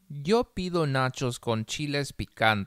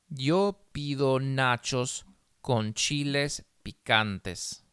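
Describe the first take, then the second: First: The sentence is read at a faster pace. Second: The sentence is read slowly. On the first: "más rápido" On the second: "Una vez despacio"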